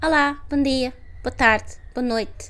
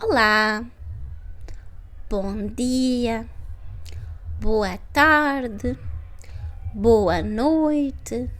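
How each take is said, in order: First: The phrases are spoken fast and naturally. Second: The phrases are spoken slowly and carefully. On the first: "Faster, right?" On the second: "When I said it first, it was slowly"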